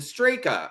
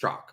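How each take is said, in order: First: The surname is said with two syllables. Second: The surname is said with one syllable. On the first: The speaker calls it wrong. "if someone says uh, Brandon Straka" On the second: The speaker calls it right. "I'm like, it's Strzok"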